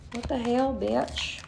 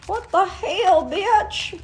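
First: Soft, muttered to herself; quiet mutter. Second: Higher, put-on scolding friend; mock scolding voice. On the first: Real, not acted. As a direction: murmur it under your breath. Reacting to her own nakedness. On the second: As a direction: scold yourself in a higher comic voice.

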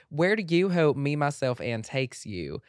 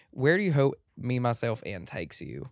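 First: Loud, higher Southern lady voice, slowing at the end; lady country accent. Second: Guy's country accent. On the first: Host reading the question like a country lady, Southern belle accent. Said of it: "a lady country voice". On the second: Host reading the question in a country accent, like a guy. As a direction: read it like a Southern guy. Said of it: "speaking like a guy". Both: Shown as a demonstration.

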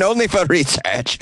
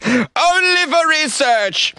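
First: Said in the usual way. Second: Mock falsetto. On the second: Mock repeat of his own line.

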